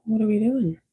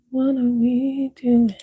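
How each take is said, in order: First: Said in the usual way. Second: Higher, slower playful repeat of "What are we doing?"; drawn-out sing-song question. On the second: Pretend. Streamer repeating her own question to chat, slow and sing-song. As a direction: stretch "doing" out in a teasing lilt.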